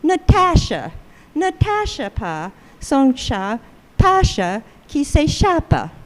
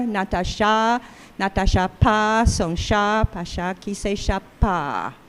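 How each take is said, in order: First: English speaker's French. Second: French phrasing. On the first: Retold or imitated. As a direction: imitate an English learner carrying over English stress into French. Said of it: "an English speaker saying the same sentence". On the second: Shown as a demonstration. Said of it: "the end of each A P, accentual phrase, opens the jaw more".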